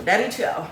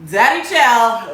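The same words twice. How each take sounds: First: Said in the usual way. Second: "Daddy chill." slow, loud, stretching "chill"; drawn-out daddy chill. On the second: Shown as a demonstration. Calming herself, she drags out "Daddy chill." loud and slow. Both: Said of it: "Let me chill".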